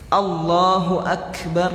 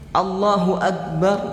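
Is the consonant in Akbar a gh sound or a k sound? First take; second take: k; gh. First: Akbar is said with a crisp k sound. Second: Akbar is said with a throaty gh sound. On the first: The speaker calls it right. "Nah, begitu" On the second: The speaker calls it wrong. "Ag pakai goin dia"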